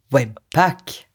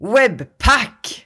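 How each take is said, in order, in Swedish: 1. Stavelsen pack har lite betoning. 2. Stavelsen pack har stark betoning.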